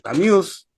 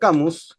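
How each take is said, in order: First: The name is said with French sounds. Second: The name is said with Spanish sounds.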